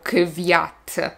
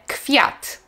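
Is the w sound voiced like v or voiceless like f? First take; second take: voiced; voiceless. First: The w after k sounds voiced, like v. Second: The w after k sounds voiceless, like f. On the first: The speaker calls it wrong. "Nie mówimy" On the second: The speaker calls it right. "tak jakby wy to było fy"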